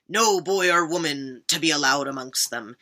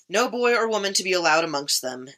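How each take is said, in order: First: It is read in a put-on pirate voice. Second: It is read in the speaker's normal voice.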